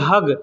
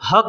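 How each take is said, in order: First: The word ends with a g sound. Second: The word ends with a k sound. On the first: This is how people in Qatar and Kuwait say it. "उसी को लोग बोलते हैं हग" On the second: This is how the word is written. "अरबी में जब लिखेंगे ना, तो बड़ा हा और बड़ा काफ से लिखा जाएगा। तो हक हक होता है"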